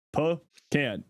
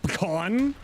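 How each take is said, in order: First: "Pecan." as puh-KAN, short a, falling flat; "Pecan." firmly, stress on KAN with a short a; own pronunciation. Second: "Pecan?" said as puh-KAHN, stress on the second syllable; "Pecan?" with an ah vowel, rising like a question; chat's pronunciation. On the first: Correcting chat: "Pecan." as puh-KAN. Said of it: "the pronunciation of pecan". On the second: Reading out how chat says it: "Pecan?" as puh-KAHN. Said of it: "what do you call it?". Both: Shown as a demonstration.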